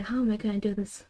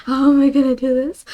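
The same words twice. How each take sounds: First: Quick soft mutter under the breath; muttered to self. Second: Louder, rising at the end; exasperated question. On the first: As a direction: rush it quietly, half to yourself. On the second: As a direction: ask it out loud, at a loss. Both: Real, not acted. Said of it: "I don't know how to explain this".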